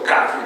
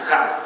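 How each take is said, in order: First: It begins with a hard, clean k sound. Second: It begins with a raspy, throaty kh sound. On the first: The letter is written with a dot inside. "Kaf con un puntito en medio se llama K como kaf" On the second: The letter is written without a dot inside. "la lengua hebrea es glutural, entonces es, se escucha como jaf"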